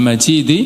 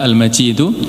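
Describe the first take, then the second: First: The word ends with an i vowel. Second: The word ends with an u vowel. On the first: The word describes the throne as glorious. "Kalau dibaca kasrah" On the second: The word describes God as glorious. "kalau Al-Majidu berarti mensifati kalimah dzu"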